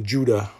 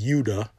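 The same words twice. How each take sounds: First: The name is said with English pronunciation. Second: The name is said with Hebrew pronunciation. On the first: "And we say Judah" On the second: "In the Hebrew pronunciation is Judah"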